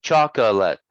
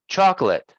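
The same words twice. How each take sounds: First: Chocolate as CHOK-uh-lit, middle vowel sounded; chocolate with an audible uh in the middle; three-syllable pronunciation. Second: Chocolate as CHOK-lit, middle vowel dropped; chocolate with the middle schwa reduced to nothing; two-syllable pronunciation. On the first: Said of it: "instead of chocolate". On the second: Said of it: "So we say chocolate". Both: Shown as a demonstration.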